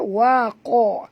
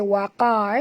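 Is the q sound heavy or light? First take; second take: heavy; light. First: The q sound is heavy and thick. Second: The q sound is light and thin. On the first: The speaker calls it right. "ko tebal ya" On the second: The speaker calls it wrong. "jangan baca waqa ya"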